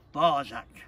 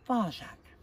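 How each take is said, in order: First: A hint of stern father, loud. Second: Lightly voiced mother, higher and louder; reproving mother. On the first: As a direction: cut in firmly as the father, without raising pitch. Father cuts off the child. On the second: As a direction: cut in as a mildly reproving mother. Mother cuts off the child.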